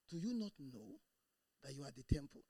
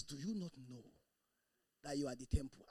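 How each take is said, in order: First: Hesitant, doubtful reading of the verse; mumbled unsure verse reading; flat timid reading. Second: Timid reading. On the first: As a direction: read it like you don't believe it. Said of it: "that's the way the person reads it". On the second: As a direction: read it without conviction. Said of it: "And you read it that way". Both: Shown as a demonstration.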